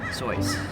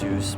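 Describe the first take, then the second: First: The vowel rhymes with "voice". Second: The vowel rhymes with "deduce". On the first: The speaker calls it right. "when using your voice, you would say it" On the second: The speaker calls it wrong. "I can see how you deduce that it's pronounced"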